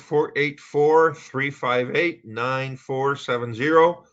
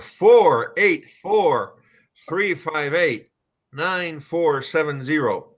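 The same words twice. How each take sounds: First: The number is said at a normal, quick pace. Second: The number is said slowly and deliberately. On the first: The speaker calls it wrong. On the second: The speaker calls it right.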